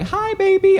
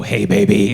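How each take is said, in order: First: Put-on high, cooing "Hi, baby."; high baby greeting. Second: Put-on low, deep-ish "Hey, baby."; low baby greeting. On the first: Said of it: "Most people go high". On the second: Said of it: "I go low". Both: Shown as a demonstration.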